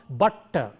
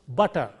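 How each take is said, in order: First: The middle T sound is held long, doubled. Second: The middle T sound is short and single. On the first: The speaker calls it wrong. "When you say butter, the T is prolonged" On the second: The speaker calls it right. "it will be pronounced as though there is a single T there"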